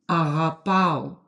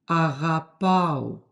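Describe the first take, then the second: Both takes have the same delivery.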